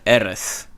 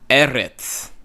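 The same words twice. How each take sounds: First: The final consonant is a throaty, backed s sound. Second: The final consonant is a plain ts sound. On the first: This is the older pronunciation, not the modern Israeli one. "It's close to the back of the throat" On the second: This is how modern Israeli speakers say it. "they'll say Eretz. Eretz instead of Eretz"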